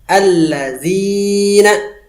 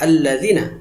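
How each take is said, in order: First: The zi vowel is held long. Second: The zi vowel is cut short. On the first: The speaker calls it right. "maka zi-nya panjangkan" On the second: The speaker calls it wrong. "Jangan dibaca pendek"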